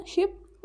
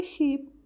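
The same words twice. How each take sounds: First: शिप with a quick, short i; शिप said briskly with a short i; short vowel ship. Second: शीप with a drawn-out ee; शीप with a held long ee; long vowel sheep. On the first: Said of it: "कहाँ पे short vowel बोलना है". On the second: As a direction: stretch the ee in शीप. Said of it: "long vowel". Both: Shown as a demonstration.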